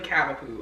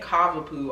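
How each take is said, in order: First: The first syllable sounds like 'cav' in Cavalier. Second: The first syllable differs from 'cav' in Cavalier. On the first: The speaker calls it right. "It's really Cavapoo" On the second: The speaker calls it wrong. "I've been saying it wrong. I be saying Cavapoo all the time"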